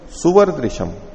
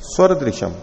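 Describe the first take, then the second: First: The word begins with two syllables 'su-va'. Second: The word begins with a single syllable 'sva'. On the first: "स में उकार जोड़ दिया" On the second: "स्वरदृशम की जगह क्या कर दिया"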